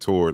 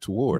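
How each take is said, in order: First: The word has a Southern country pronunciation. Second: The word has a standard, clearly articulated pronunciation. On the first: The speaker calls it wrong. "I'm from the South. I'm really country ... it sounds terrible" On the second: The speaker calls it right. "she said toward"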